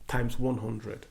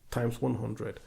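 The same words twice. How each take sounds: The two takes are said the same way.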